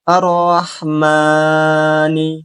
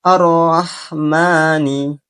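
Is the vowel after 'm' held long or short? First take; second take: long; short. First: The vowel after m is held too long. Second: The vowel after m is held two beats. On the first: The speaker calls it wrong. "membaca huruf mim yang berharokat fathah lebih dari dua harokat" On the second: The speaker calls it right. "Cara membaca yang benar adalah"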